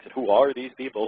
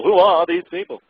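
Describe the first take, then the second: First: Said in the usual way. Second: Higher and louder, incredulous; incredulous repeat. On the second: Real, not acted. Repeats the question, mocking its wording.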